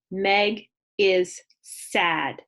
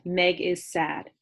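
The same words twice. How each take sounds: First: Meg is sad, slow and smooth in one breath; read fluently. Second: Meg is sad, slow and even in one breath. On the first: Teacher modelling a fluent read for kindergartners. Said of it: "read it again fluently". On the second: Teacher modelling reading in one breath. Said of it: "I can say that whole sentence in one breath". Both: Shown as a demonstration.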